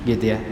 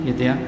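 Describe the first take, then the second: The two takes are said the same way.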